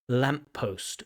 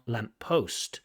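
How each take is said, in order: First: The stress is on the first word. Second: The stress is on the second word. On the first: The speaker calls it right. "the stress falls on the first word" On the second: The speaker calls it wrong.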